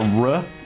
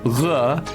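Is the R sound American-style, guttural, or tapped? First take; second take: American; guttural. First: The R is a smooth American-style approximant. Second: The R is a guttural sound in the throat. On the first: "like in American English, just like a R, like as is normal for me" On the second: "you can pronounce it as the French R"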